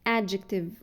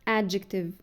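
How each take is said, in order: Both takes have the same delivery.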